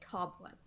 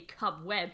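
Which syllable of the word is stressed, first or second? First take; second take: first; second. First: The stress is on the first syllable. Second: The stress is on the second syllable. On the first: The speaker calls it right. "It's on the first syllable" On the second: The speaker calls it wrong. "you don't say cobweb"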